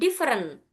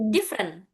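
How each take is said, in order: First: The word is said with three syllables. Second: The word is said with two syllables. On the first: The speaker calls it wrong. "bukan different" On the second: The speaker calls it right. "tapi different. Dua"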